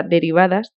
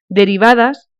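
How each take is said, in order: First: Said in the usual way. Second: "derivadas" lightly emphasised, set apart with a small lift; stress on DERIVADAS. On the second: A narrator's reading. Karenin tells the countess of household orders, lightly stressing "derivadas". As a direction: give "derivadas" a slight deliberate emphasis. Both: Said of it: "recalcó la palabra derivadas".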